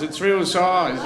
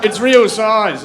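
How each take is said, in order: First: "It's real size" stretched out slowly and drily; slow, deadpan. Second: "it's real size" pushed out loud with a hard stress on "real"; emphatic. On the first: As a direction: drag out "It's real size" with a dead straight face. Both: Acted.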